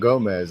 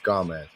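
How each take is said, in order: First: The first vowel sounds like 'o'. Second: The first vowel sounds like 'a'. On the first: The speaker calls it wrong. "It's not Gomez" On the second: The speaker calls it right. "It's Gomez. G A M E Z"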